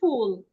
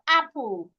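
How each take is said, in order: First: An h sound is added before the first vowel. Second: The word starts directly on the vowel, without h. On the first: The speaker calls it wrong. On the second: The speaker calls it right.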